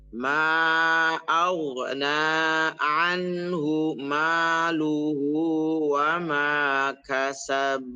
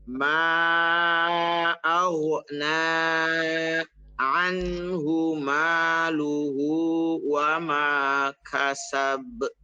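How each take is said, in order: The two takes are said the same way.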